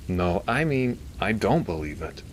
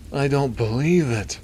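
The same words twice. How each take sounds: First: Mild considered disbelief. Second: Elongated gasp. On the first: Doctor correcting himself to the priest, mildly doubtful. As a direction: start raised, then settle to firm doubt. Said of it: "Milton said while stroking". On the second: Doctor seeing the footage, in an elongated gasp. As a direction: stretch it out as an astonished nasal gasp. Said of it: "said in a kind of elongated gasp". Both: A narrator's reading.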